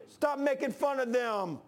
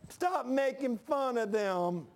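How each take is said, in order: First: Slow, higher, chuckling through a pretend telling-off; laughing mock scold. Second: Very slow, higher, stretched pretend scolding; hammed-up scold drawled very slowly; drawn-out mock scold. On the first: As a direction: scold Elijah while laughing at it. Imagined rebuke, laughing. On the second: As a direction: drag out the telling-off like a whiny tattler. Imagined rebuke, drawn out.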